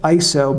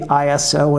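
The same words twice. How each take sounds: First: It is said as a single word. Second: It is spelled out as three separate letters. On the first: This is the other common way of saying it. "instead of ISO" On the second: This is the habitual American way of saying it. "a lot of Americans say ISO"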